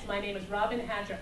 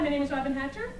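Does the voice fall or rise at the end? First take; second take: fall; rise. First: The pitch falls at the end. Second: The pitch rises at the end. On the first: It sounds like a confident statement. The speaker calls it right. "Make it go down at the end" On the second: It sounds unconfident, like asking a question. The speaker calls it wrong. "everything goes up at the end"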